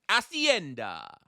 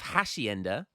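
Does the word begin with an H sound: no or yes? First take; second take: no; yes. First: The word begins with a vowel, no H. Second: The word begins with an audible H sound. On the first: The speaker calls it right. "I don't pronounce the H" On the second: The speaker calls it wrong. "instead of Hacienda"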